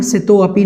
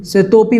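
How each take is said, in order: First: सितो अपि split into two words; wrong split reading. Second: सितोपि said as one joined word; correct joined form. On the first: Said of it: "सितो अपि नहीं बोलना है". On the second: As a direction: keep सितोपि together. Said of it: "सितोपि बोलना है". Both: Shown as a demonstration.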